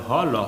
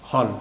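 First: হ and ল as separate open sounds; letter by letter. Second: হল as one closed syllable; read joined. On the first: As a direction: sound out হ, then ল. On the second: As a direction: blend হ and ল, ending on the consonant. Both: Shown as a demonstration. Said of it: "পরপর দুটি অক্ষরে".

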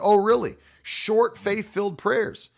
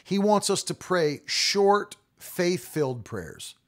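First: Sarcastic. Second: Quoting the preacher. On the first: Preacher scoffing at the short-prayer teaching, sarcastic. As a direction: scoff at the idea, light sarcasm. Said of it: "I thought". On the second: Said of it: "He said". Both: Retold or imitated.

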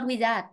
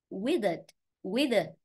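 First: "wizard" with a full second syllable, wi-ZAT; learner's wrong "wizard", ending in a clear A; mispronounced wizard. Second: "wizard" as WI-zəd, weak second syllable; stress on first syllable. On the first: Teacher quotes a student's error back, mispronounced wizard. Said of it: "not wizard". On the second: Teacher corrects a student's wizard, stress on first syllable. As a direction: model "wizard" stressed on WIZ. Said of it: "Trọng âm, âm tiết một rồi". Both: Shown as a demonstration.

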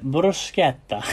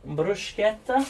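First: Bruschetta drawn out slowly in a light Italian accent, broo-SKET-ta; mock Italian accent. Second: Bruschetta said as broo-SHKET-a, English way, questioning rise; unsure English pronunciation. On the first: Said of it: "Don't know why I'm putting an accent on". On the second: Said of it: "Is that how you pronounce it?". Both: Shown as a demonstration.

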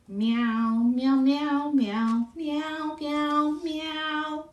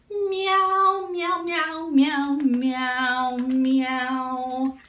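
First: Higher sung meows at ordinary volume; sung, cat's song. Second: High, louder sung meows, long notes; cat singing louder. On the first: Cat sings strolling down the block, in meows. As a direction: sing the meow tune easily. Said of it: "sang her amazing song again". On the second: Cat passes Turtle's house, singing meows louder. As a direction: sing the meow tune out more strongly. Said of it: "Cat sang a little louder". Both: A narrator's reading.

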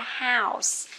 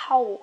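First: "house" said slowly with the "ow" sound and a clear hissed S at the end; correct pronunciation. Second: "hole" with a long O sound and no S, the common mistake; wrong pronunciation. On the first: Teacher giving students the correct model, slow and careful "house". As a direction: stretch out "house" with an "ow" and a crisp final S. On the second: Teacher showing students the mistaken reading, a clipped "hole". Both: Shown as a demonstration. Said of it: "không phải là hole nhá".

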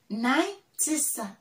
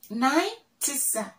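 The two takes are said the same way.

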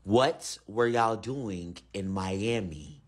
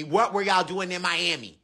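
First: Very slow, deep alien voice; deep slow menacing repeat; slower alien repeat. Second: Deep alien voice, normal pace; low steady alien question; alien interrogator. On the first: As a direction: drag out the question, deep and slow. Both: Acted.

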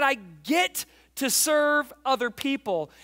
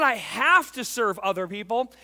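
First: Slow, "get" punched high and held; stress on GET. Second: "have" punched louder than the rest; stress on HAVE. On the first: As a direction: hit "get", pause on it, then go on. Contrasting get to with have to. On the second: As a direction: lean hard on "have". Contrasting have to with get to. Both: Shown as a demonstration.

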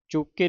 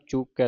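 First: ਚੂਕੇ ending in narrow "e", pitched up; wrong vowel ending. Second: ਚੂਕੈ ending in open "ai", pitched down; correct open ending. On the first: Teacher shows students the misreading, ਚੂਕੇ with "e". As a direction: say ਚੂਕੇ as "chook-ay". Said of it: "ਚੂਕੇ ਨਹੀਂ ਪੜ੍ਹਨਾ". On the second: Teacher corrects students' reading, ਚੂਕੈ with open "ai". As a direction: say ਚੂਕੈ with a wide final "ai". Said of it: "ਚੂਕੈ ਦਲਾਵਾਂ ਦੇ ਨਾਲ". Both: Shown as a demonstration.

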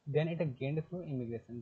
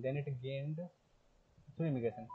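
First: Slow textbook reading. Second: Said in the usual way. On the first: Shown as a demonstration. Teacher reading the book line to students, very slowly. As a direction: drag each word out as if dictating.

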